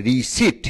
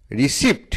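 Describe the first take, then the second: First: রিসিট with a silent P; correct pronunciation. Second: রিসিপ্ট with the P sounded before T; mispronounced রিসিপ্ট. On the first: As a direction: say রিসিট, ri-seet, ending on T alone. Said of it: "সঠিক উচ্চারণ হচ্ছে". (রিসিট, প অনুচ্চারিত) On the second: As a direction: say রিসিপ্ট as spelled, ri-sipt. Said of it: "এই উচ্চারণটা সঠিক নয়". (রিসিপ্ট, প উচ্চারণ করে) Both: Shown as a demonstration.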